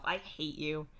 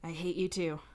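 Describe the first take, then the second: First: Lightly aggrieved; mock complaint. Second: Touch of sleepy rumble; sleep-rumbly. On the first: Telling Dave off over a pun, mildly aggrieved. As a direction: grumble it with little real heat. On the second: Dave right against your ear, sleepily rumbly. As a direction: say it lightly rumbly, as if just woken. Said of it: "voice all rumbly from sleep". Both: A narrator's reading.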